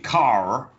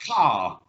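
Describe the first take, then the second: First: The final R sound is clearly pronounced. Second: The final R sound is not pronounced. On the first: "they say car as ... the rhotic R" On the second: "when I say car"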